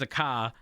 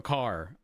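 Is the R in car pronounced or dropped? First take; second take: dropped; pronounced. First: The R at the end of car is dropped. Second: The R at the end of car is pronounced.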